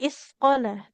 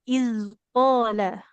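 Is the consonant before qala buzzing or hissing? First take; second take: hissing; buzzing. First: The consonant before qala is a hissing s. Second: The consonant before qala is a buzzing z. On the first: The speaker calls it wrong. "Jadi bukan isqala" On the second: The speaker calls it right. "tapi izqala"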